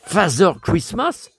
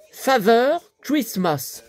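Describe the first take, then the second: First: Father Christmas with a doubtful rising end; puzzled question. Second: Drawn-out, careful English reading; slow read. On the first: Doubting the book's phrase to viewers, puzzled rising question. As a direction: repeat it as if you can't believe it. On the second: Reading the book's phrase aloud to viewers, slowly and deliberately. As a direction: spell out Father Christmas slowly, weighing each word. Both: Shown as a demonstration. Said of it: "J'ai jamais vu ça".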